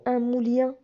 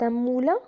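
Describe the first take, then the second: First: Moulien said mool-YAN with a glide before the nasal ending; wrong on purpose. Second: Said in the usual way. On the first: Shown as a demonstration. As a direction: deliberately mispronounce moulien with the ien ending. (moulien prononcé avec le son ien, exprès faux) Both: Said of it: "C'est un moulin ou un moulien?".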